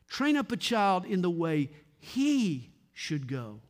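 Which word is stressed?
he. The word he is stressed.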